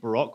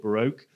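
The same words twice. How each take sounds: First: It is said in the speaker's own British way. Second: It is said in an American way.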